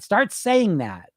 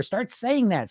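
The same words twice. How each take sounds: First: Slow, deliberate. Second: Said in the usual way. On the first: Shown as a demonstration. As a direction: Start saying that, drawn out slowly.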